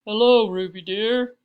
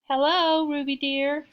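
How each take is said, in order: First: Loud, rounded, stately greeting; big, cultured matron; deep, cultured voice. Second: High, loud, rough squeak; scratchy high fake-granny greeting; rough, squeaky voice. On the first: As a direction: greet her in a deep refined voice. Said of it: "in her deep, cultured voice". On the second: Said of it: "said a rough, squeaky voice". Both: A narrator's reading.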